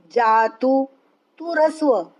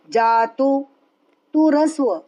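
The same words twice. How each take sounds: The two takes are said the same way.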